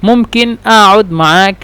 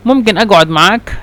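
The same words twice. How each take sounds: First: أقعد said aʔud with the qaf as a glottal stop; egyptian qaf as glottal stop. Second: أقعد said aɡʕud with a hard g; gulf qaf as g. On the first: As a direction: drop the qaf in أقعد to a hamza. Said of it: "بالهمزة نتكلم ممكن أقعد معك". (نطق القاف همزة في أقعد) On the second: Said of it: "استخدمت قاف يعني غين". (نطق القاف جيمًا مصرية في أقعد) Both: Shown as a demonstration.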